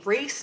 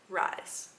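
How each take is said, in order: First: The name has an 'ee' vowel sound. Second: The name has an 'eye' vowel sound. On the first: The speaker calls it wrong. "Why would you shorten that to Reese?" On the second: The speaker calls it right. "His name is Rise"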